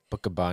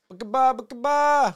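First: Said in the usual way. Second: Put-on squeaky high baby voice repeating it; high toddler babble. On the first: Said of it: "he just made up a word". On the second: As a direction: chirp "Bookaba, bookaba" high like a toddler. And he'd be like.

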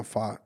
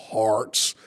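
First: "Fart" with the r dropped; r-less fart. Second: "Farts" with a clearly pronounced r; r sounded. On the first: Asked how he says it, demonstrates his r-less "Fart". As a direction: say "Fart" low and soft, no r. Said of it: "Why do you say farts like that". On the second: Trying it the way they want, r fully sounded in "Farts". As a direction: put the r firmly into "Farts". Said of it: "I don't know how you want me to say it". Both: Shown as a demonstration.

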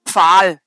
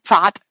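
First: "Pfahl", long a gliding into l; pronunciation of Pfahl. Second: "Pfad" ending in a clear t sound; pronunciation of Pfad. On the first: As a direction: say "Pfahl" slightly lower, ending on l. („Pfahl“ mit langem a und l am Ende) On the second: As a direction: say "Pfad" with its final d hardened to t. („Pfad“ mit hörbarem t am Ende) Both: Shown as a demonstration. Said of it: "Komm jetzt nicht so gut raus mit meiner Aussprache".

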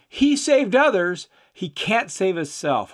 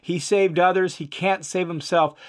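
First: "He" thrown up high, then "he can't save himself" sinks; mocking stress on he. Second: "saved" leaned on, "he can't save himself" falls away; stress on saved. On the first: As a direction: jeer with the first "He" lifted sharply. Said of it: "they're mocking him". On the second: Shown as a demonstration. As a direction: hit "saved" to point the irony. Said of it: "Hopefully you hear the emphasis" the speaker "is making".

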